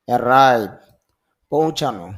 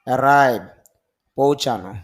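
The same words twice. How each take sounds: No difference in how they are said.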